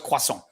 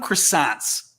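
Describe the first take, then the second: First: The word is said with a French pronunciation. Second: The word is said with an American English pronunciation. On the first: It is the original form, which can sound snooty. "even though I know it's croissant" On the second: It is the everyday word English speakers use. "I call them croissants because that's the word we use in English"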